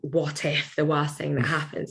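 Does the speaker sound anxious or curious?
anxious. It sounds worried, as if dreading the outcome. The worst outcome is feared. The speaker calls it wrong. "instead of going"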